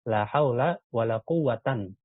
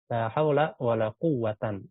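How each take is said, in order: First: The last word ends in -an. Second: The last word ends in -an.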